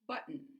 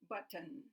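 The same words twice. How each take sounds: First: The middle T is a glottal stop. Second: The middle T is a fully released T. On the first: The speaker calls it right. "But the correct pronunciation is button" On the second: The speaker calls it wrong. "they'll say button"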